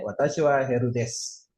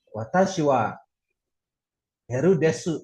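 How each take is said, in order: First: Desu cut to "des", no u; silent u. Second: Desu with its final u fully sounded; u pronounced. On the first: Teacher showing how men say it, silent u. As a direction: drop the final u of desu. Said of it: "ya ngucapinnya". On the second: Teacher showing what men should avoid, u pronounced. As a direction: say "de-su", voicing the u in desu. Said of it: "Jadi kalau cowok ngucapinnya". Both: Shown as a demonstration.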